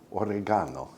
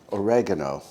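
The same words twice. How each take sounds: First: "oregano" with the stress moved to GA: o-reh-GAH-no; alternative pronunciation. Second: Said in the usual way. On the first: Shown as a demonstration. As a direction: say "oregano" as o-reh-GAH-no, broad "ah" in the third syllable. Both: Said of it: "or oregano".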